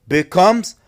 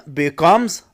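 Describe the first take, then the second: The two takes are said the same way.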